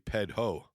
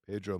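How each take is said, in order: First: The middle consonant sounds like an H. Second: The middle consonant sounds like an R.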